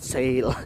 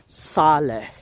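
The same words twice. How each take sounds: First: It sounds like the English word 'sale'. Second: It is not said like the English word. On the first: The speaker calls it wrong. "it's not sale" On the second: The speaker calls it right. "the correct pronunciation is Sale"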